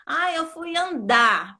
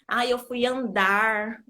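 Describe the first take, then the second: First: Andar said slowly as "andá", final R dropped; drawn-out andar ending on an open stressed A; sem o R final. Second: Andar said slowly with the final R fully sounded; R final pronunciado. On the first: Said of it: "Porque a gente fala assim". ("andar" falado "andá", sem pronunciar o R) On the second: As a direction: overdo the R at the end of andar. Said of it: "É difícil você ver uma pessoa que fala". ("andar" com o R final bem marcado) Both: Shown as a demonstration.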